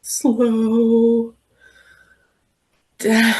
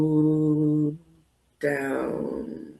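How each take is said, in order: First: Slow. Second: Low, drawn-out and slow; really slow. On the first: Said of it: "I want you to say it really slow". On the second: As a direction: stretch it out, very slow. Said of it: "Say it really slow". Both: Shown as a demonstration.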